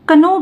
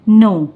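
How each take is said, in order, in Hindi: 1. k की ध्वनि n से पहले बोली जाती है। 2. शब्द सीधे n की ध्वनि से शुरू होता है। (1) "बहुत लोग इसे कनो भी पढ़ते हैं जो कि बिल्कुल गलत होता है" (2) "इसका करेक्ट प्रोनाउंसिएशन होता है नो"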